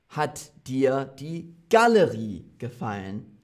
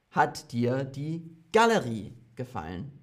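First: Galerie stressed in the question. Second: Galerie stressed, rising question tune. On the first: Teacher demonstrating which word carries the stress, Galerie stressed. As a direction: lean on Galerie, not on dir. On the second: Teacher repeating the drill question, Galerie stressed. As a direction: put the weight on Galerie, let the question rise. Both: Shown as a demonstration. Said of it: "Also nicht „Hat dir".

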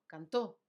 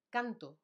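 First: Cantó with a loud final ó; stress on final syllable. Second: Canto with the first syllable punched; stress on first syllable. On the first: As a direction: say cantó as can-TÓ. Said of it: "está acentuado". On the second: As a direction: say canto as CAN-to, falling at the end. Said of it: "no hay tilde". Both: Shown as a demonstration.

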